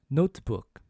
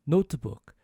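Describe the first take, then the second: The two takes are said the same way.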